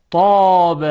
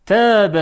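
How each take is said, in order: First: طاب with a thick ط and dark, open-back long vowel; careful, drawn-out model of طاب; heavy emphatic ta. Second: تاب with a light, thin t and fronted vowel; light dotted ta. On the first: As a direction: make طاب full and heavy from the ط. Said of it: "با حرف تا". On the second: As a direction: keep the ت in تاب fine and delicate. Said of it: "با ت دو نقطه". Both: Shown as a demonstration.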